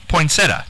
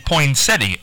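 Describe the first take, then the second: First: Poinsettia said as poin-SET-uh; corrected short pronunciation. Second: Poinsettia said as poin-SET-ee, with an ee sound; fuller pronunciation. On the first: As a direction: end poinsettia on plain -uh, no ee. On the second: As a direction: put an ee after SET in poinsettia. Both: Shown as a demonstration. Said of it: "most people say poinsettia".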